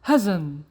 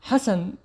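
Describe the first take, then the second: First: The middle consonant is a buzzing Z sound. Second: The middle consonant is a hissing S sound.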